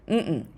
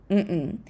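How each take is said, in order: No difference in how they are said.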